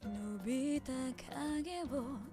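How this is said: The voice is relaxed and sighed out.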